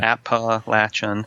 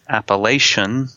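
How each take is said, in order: First: The word is said the local way. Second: The word is said the outsider way. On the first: The speaker knows the area. The speaker calls it right. "The correct one uh, that we claim is the correct one" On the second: The speaker is not from the area. The speaker calls it wrong. "A lot of people not from around here say"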